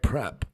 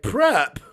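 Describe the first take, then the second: First: The word is said at a fairly soft volume. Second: The word is said at its loudest volume.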